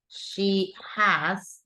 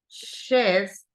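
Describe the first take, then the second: First: It is said as two full words. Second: It is said as one contracted syllable.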